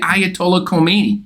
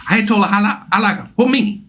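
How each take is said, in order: First: The name has a familiar anglicized pronunciation. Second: The name has a new Persian-style pronunciation. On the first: This is the long-familiar way of saying the name. The speaker calls it wrong. "No, that's not how you say his name" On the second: This is the newly adopted way of saying the name. The speaker calls it right. "he's got a whole new pronunciation of his name"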